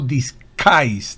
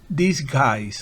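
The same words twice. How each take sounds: First: The consonant after s is a strong, hard K. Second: The consonant after s is a soft, light K. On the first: The speaker calls it wrong. "pero tampoco disguise, no" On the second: The speaker calls it right. "una K suave, no muy fuerte"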